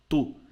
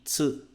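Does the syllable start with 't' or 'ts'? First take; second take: t; ts. First: The syllable starts with a plain 't' sound. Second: The syllable starts with a 'ts' sound. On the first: The speaker calls it wrong. "No japonês não existe o som tu" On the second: The speaker calls it right. "e sim tsu"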